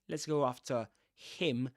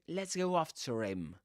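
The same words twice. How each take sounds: First: The r of after stays separate from him. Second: The r of after links into him. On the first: The speaker calls it wrong. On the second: The speaker calls it right. "a linking ra there"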